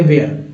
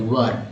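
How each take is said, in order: First: "वेयर" said with an "ay" vowel, like "wear"; wrong pronunciation. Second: "वर" with a short central vowel, like "wur"; corrected pronunciation. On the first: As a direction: say "वेयर" as vay-ar, the common mistake. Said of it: "ये गलत उच्चारण करते हैं ना". ("वेयर" का गलत उच्चारण, ए की आवाज़ के साथ) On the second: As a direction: say "वर" as one short syllable, no "ay". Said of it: "इसको वर पढ़ेंगे". ("वर" का सही उच्चारण, छोटे अ के साथ) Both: Shown as a demonstration.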